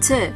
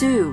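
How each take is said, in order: First: The word has a reduced schwa vowel. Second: The word has a full 'oo' vowel. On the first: The speaker calls it right. "but t" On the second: The speaker calls it wrong. "not pronounced as to"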